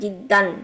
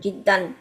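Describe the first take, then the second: The two takes are said the same way.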